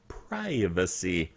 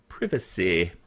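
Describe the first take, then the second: First: It is said in an American accent. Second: It is said in a British accent.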